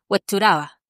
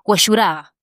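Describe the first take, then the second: First: It is said with an upper-class Chilean pronunciation. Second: It is said with a working-class Chilean pronunciation. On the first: The speaker is from a wealthy neighbourhood. "cuando uno va al barrio cuico" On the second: The speaker is from a poor neighbourhood. "tú vas a una población humilde y te dicen"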